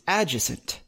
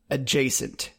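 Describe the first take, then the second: First: The word is said sounding like 'adjective'. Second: The word is said with its standard pronunciation. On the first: The speaker calls it wrong. "what I think it is" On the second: The speaker calls it right. "I did say it correctly"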